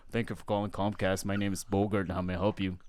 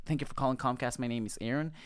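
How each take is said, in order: First: Low, put-on manly phone greeting; very deep voice. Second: Said in the usual way. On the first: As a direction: drop your voice to sound manly. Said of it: "very deep voice". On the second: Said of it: "when I first answered the phone".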